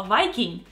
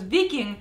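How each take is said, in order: First: Viking said English-style as "VY-king"; Viking rhyming its first syllable with "my"; English pronunciation. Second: Viking said Russian-style as "VEE-king"; Viking as "veeking", the Russian name; Russian pronunciation. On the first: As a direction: say Viking with an eye sound up front. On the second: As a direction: say Viking with an ee in the first syllable. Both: Shown as a demonstration. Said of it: "Viking is a Viking".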